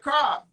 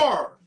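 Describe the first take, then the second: First: The R at the end is dropped. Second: The R at the end is strongly pronounced. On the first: This is how people in Chicago say it. "Chicago, we take the R out" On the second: This is how people out here say it. "They so proper out here. They they like they really enunciate, ... like extra R"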